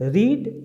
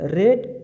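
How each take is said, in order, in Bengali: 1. স্বরধ্বনিটি দীর্ঘ, 'reed'-এর মতো। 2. স্বরধ্বনিটি হ্রস্ব, 'red'-এর মতো। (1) "প্রথমে রিড" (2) "তারপরে রেড"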